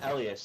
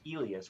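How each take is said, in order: First: The name is said with a Nordic pronunciation. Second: The name is said with a Spanish pronunciation. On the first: "there's like a Swedish Nordic way to say it, and so that's mine" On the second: "which is the Spanish way"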